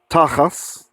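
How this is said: The word ends with an S sound.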